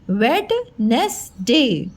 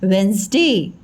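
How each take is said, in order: First: वेडनेसडे slowly broken into wed, nes, day; spelling pronunciation. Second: वेडनेसडे run together as wens-day, first D silent; standard pronunciation. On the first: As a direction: say every written syllable of वेडनेसडे, D included. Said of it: "लिखना है ऐसे हमको". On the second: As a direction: say वेडनेसडे in two syllables, WENS-day, falling. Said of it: "लेकिन हमें pronunciation क्या करना है?". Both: Shown as a demonstration.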